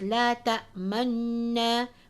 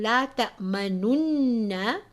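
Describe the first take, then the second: First: The lips round but no u vowel sounds. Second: The u vowel before the n is fully voiced. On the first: "Ishmam, which is circling the lips" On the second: "rather than saying"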